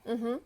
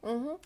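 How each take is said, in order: No difference in how they are said.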